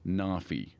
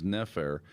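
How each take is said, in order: First: The word ends with a vowel sound. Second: The word ends with an r sound. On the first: This is the likely ancient pronunciation. "was probably pronounced something like Nafi" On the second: This is the modern scholarly reading. "an Egyptologist will synthetically pronounce as Nefer"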